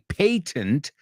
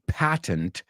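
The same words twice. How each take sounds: First: It is said with a British pronunciation. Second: It is said with an American pronunciation. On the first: "the British say patent" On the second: "Americans say patent"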